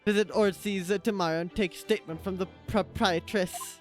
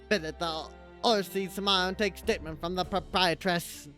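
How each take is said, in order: First: It is said in the speaker's own voice. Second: It is said imitating Gregson's voice.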